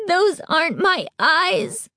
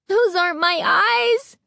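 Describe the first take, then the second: First: High slow wail, "Those" rising. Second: High rising scream, stress on Those; terrified scream. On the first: Girl at the mirror wailing, high and slow. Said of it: "Carly Beth wailed". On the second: Girl staring at strange eyes, high terrified scream. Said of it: "she screamed". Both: A narrator's reading.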